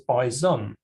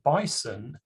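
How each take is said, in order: First: The middle consonant is a z sound. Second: The middle consonant is an s sound. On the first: The speaker calls it wrong. "mispronounce the word bison with a z sound in the middle as bison" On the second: The speaker calls it right. "the correct way to pronounce the word bison is with a s sound in the middle"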